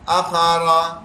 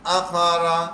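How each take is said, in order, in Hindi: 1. यह शब्द जल्दी में बोला गया है, इसका शुरुआती स्वर छोटा कर दिया गया है। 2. यह शब्द जल्दी में बोला गया है, इसका शुरुआती स्वर छोटा कर दिया गया है।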